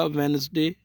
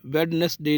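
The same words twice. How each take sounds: First: "वेडनेसडे" said as wenz-day, first d dropped; silent d. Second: "वेडनेसडे" spelled out as wed-nes-day; wrong pronunciation. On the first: Teacher modelling the day's name, "वेडनेसडे" with silent first d. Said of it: "जो डी है वो silent है". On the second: Teacher warning against the mistake, "वेडनेसडे" with d fully sounded. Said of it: "वेडनेसडे नहीं बोलना है". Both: Shown as a demonstration.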